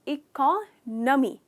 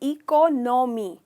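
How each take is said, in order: First: The second syllable sounds like 'nuh'. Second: The second syllable sounds like 'no'. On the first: The speaker calls it right. "Correct pronunciation है इकोनॉमी। तो नो नहीं है, न है।" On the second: The speaker calls it wrong. "Generally लोग कहते हैं इकोनॉमी"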